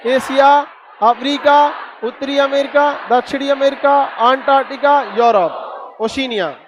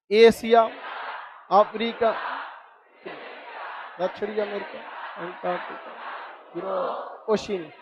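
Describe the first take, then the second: First: Brisk classroom list, no pauses; quick recital. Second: Softer, unhurried recital with long gaps; slow and unhurried. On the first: Teacher drills the class on continents, rattling them off quickly. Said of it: "चलिए अब फटाफट बताइए". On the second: Teacher shows students how to recite calmly, slow and soft. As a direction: take your time over each continent, no rush. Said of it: "पहला बोलिए तो आराम आराम से, जल्दबाजी नहीं, एकदम इत्मीनान से". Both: Shown as a demonstration.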